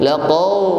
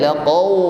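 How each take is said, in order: Both takes have the same delivery.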